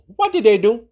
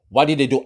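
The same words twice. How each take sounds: First: High, rising mock-curious ask; higher rhetorical question, rising at the end. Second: Said in the usual way. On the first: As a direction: toss the question up to the viewers.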